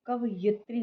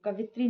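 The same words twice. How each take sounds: First: Said in the usual way. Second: कवित्री run together without the यि; dropped syllable. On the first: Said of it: "होता है". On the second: Shown as a demonstration. Teacher rejecting the frequent exam error, dropped syllable. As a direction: drop the middle syllable of कवित्री. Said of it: "नहीं होता है".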